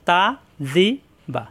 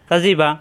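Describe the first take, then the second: First: The syllables are said separately with gaps. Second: The syllables are run together quickly.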